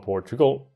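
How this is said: The word has an odd, unusual pitch pattern.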